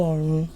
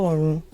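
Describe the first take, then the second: Both takes have the same delivery.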